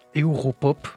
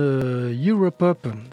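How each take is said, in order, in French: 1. Le mot se prononce à l'allemande. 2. Le mot se prononce à l'anglaise. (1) "à l'allemand, peut-être" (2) "si on le prononce à l'anglaise"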